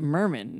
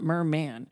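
First: The word is said like a family name. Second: The word is said like an ordinary noun. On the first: It sounds like someone's last name. "He says it merman, ... Like it's somebody's last name" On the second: It means a male mermaid. "not merman"

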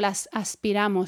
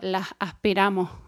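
First: The final s sounds are fully pronounced. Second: The final s sounds are breathy and aspirated. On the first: "Yo no digo"

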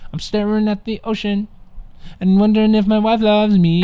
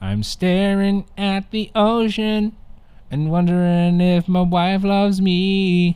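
First: It is said at a quicker pace. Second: It is said at a slower pace.

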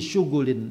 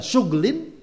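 First: A short u is heard between gh and l. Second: No vowel is heard between gh and l. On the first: "bisa dibaca dhamma" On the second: "bisukunil ghain"

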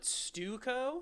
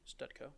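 First: The word is said without a D sound. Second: The word is said with a D sound. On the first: This is how another school said it. "You called it Stuco?" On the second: This is how the speaker's own school said it. "We pronounce the D, though"

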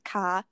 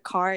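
First: The R is dropped, old New York style. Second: The R is pronounced, American style.

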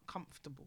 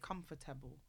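First: A middle syllable of the word is dropped. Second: Every syllable of the word is fully pronounced. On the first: "not comfortable" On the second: "I was taught as a child to pronounce every letter. I say comfortable"

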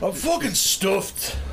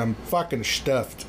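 First: It is said in a Scottish accent. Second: It is said in the speaker's ordinary accent.

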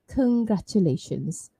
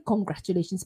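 First: The first syllable does not sound like 'Kong'. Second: The first syllable sounds like 'Kong'. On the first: The speaker calls it right. "but it's actually congratulations" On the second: The speaker calls it wrong. "if you say congratulations, people will still understand you"

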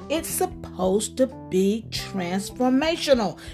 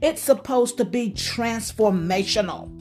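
First: It is said slowly and deliberately. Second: It is said at normal speed.

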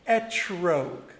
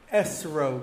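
First: It is said in a Sephardic pronunciation. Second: It is said in a non-Sephardic pronunciation.

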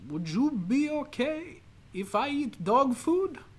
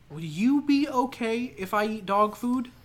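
First: It is spoken in a put-on foreign accent. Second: It is spoken in a natural, ordinary voice.

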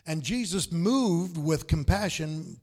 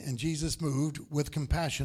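First: It is read at a slower pace. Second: It is read at a quicker pace.

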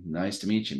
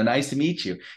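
First: The greeting is said in a plain, flat way. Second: The greeting is said in a warm, enthusiastic way.

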